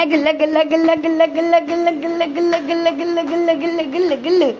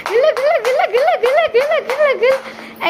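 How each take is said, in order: First: Chanted, rattle off गिल्ला in a rhythmic, level loop; chanted, steady nonsense patter on गिल्ला near normal pitch; playful tickle chant. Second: गिल्ला chanted very high, bouncing up and down; chanted, squeal गिल्ला over and over like tickling a baby; chanted, high, bubbly sing-song on गिल्ला; playful tickle chant. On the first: Same tickle chant, lower take. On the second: Tickle-play chant with toddler. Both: Pretend.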